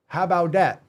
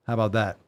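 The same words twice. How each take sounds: First: Emphatic rhetorical repeat. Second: Said in the usual way. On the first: Real, not acted. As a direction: push it home defiantly.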